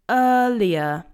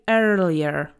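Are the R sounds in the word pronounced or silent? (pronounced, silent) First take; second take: silent; pronounced. First: The R sounds are left silent. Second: The R sounds are clearly pronounced. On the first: The speaker calls it right. "We say earlier" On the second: The speaker calls it wrong. "we don't say earlier, okay? That will be more American"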